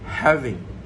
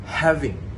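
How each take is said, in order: No difference in how they are said.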